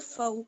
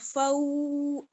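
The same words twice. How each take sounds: First: The vowel is kept short, not stretched. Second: The vowel is stretched out long. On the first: The speaker calls it right. "इसको आपने खींचना नहीं है" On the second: The speaker calls it wrong. "फऊ ऐसे नहीं करेंगे"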